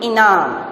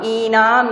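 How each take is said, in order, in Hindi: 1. पहली मात्रा छोटी है। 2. पहली मात्रा बड़ी है। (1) "जल्दी से बोलेंगे इनाम, तो छोटी की मात्रा" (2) "इनाम नहीं"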